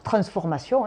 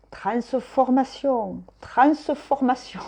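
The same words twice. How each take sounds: First: Said in the usual way. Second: TRANSFORMATION drawn out slowly and pitched high, syllable by syllable. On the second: Shown as a demonstration. Tarot reader cutting up the card's word, TRANSFORMATION slowly split into syllables. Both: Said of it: "Je découpe les syllabes".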